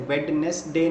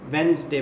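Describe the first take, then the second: First: वेडनेसडे said as written, Wed-nes-day with every letter sounded; spelling pronunciation. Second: वेडनेसडे as Wenz-day, two syllables, the first d silent; correct pronunciation. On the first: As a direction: sound out the d in वेडनेसडे, three full syllables. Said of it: "इसे वेडनेसडे नहीं कहते". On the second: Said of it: "वेडनेसडे बोलते हैं". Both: Shown as a demonstration.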